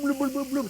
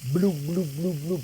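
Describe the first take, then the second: First: The bloops come quickly and vigorously. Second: The bloops are spaced out and slow. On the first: The pot is boiling hard and splattering. The speaker calls it wrong. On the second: The pot is simmering gently. The speaker calls it right. "you do it very slow"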